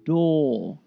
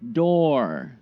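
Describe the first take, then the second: First: It ends in a plain vowel without R. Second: It ends with a heavy R sound. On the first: "no er sound, just the vowel" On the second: "So here is heavy R sound"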